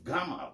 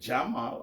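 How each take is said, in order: First: It starts with a hard G, Egyptian style. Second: It starts with a soft J sound.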